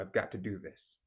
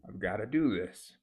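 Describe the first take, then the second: First: Got to is said in full. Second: Got to is reduced to gotta with a schwa.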